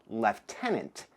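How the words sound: Lieutenant is said with a British pronunciation.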